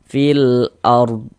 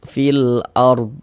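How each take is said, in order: Both takes have the same delivery.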